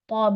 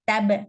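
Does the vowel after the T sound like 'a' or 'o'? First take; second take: o; a. First: The T is heavy with an 'o' vowel. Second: The T is light with an 'a' vowel. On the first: The speaker calls it right. "Say tob" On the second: The speaker calls it wrong. "Don't say hatab. Tab"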